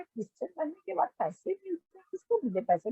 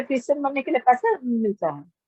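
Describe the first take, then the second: First: Soft, hushed question in disbelief; stunned disbelief. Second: Said in the usual way. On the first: Retold or imitated. To her brother-in-law, hushed and incredulous. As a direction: ask it quietly, as if you can't believe it. Retorts to brother-in-law's money accusation.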